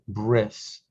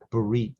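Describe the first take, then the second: First: It is one syllable ending in an s sound. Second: It is two syllables ending in a t sound.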